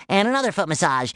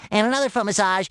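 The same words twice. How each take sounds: The two takes are said the same way.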